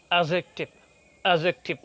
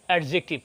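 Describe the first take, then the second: First: অ্যাডজেক্টিভ as "a-jektiv", no d; corrected silent d. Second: অ্যাডজেক্টিভ as "ad-jektiv", d heard; common sounded d. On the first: Teacher corrects learners, অ্যাডজেক্টিভ as "a-jektiv". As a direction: say অ্যাডজেক্টিভ as "ajektiv". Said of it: "উচ্চারণ হবে". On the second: Teacher mimics many learners, অ্যাডজেক্টিভ as "ad-jektiv". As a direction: say অ্যাডজেক্টিভ with a distinct d before j. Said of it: "অনেকেই বলে থাকেন". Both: Shown as a demonstration.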